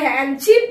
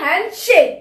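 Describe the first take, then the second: First: The second part sounds like 'ship'. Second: The second part sounds like 'shake'. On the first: The speaker calls it wrong. "সেটা কিন্তু আসলে হ্যান্ডশিপ না" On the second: The speaker calls it right. "সেটা হলো হ্যান্ডশেক"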